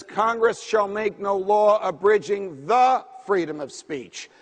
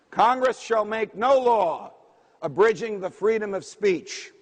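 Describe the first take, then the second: First: Slow and deliberate, leaning hard on "the" before freedom; stress on the. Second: Said in the usual way. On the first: Shown as a demonstration. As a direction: land heavily on the word "the" in "abridging the freedom". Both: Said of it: "Why do I emphasize the word".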